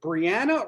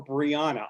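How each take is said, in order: First: Brianna said bree-ANN-uh, with the flat "a" of "cat"; first pronunciation option. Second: Brianna said bree-AH-nuh, with the open "ah" of "father"; second pronunciation option. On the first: Host asking guest which way her name goes, first pronunciation option. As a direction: say Brianna to rhyme with "Indiana". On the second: Host asking guest which way her name goes, second pronunciation option. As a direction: give Brianna a long, open "ah" in the middle. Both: Shown as a demonstration. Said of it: "I've heard both ways".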